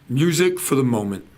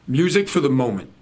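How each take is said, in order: The two takes are said the same way.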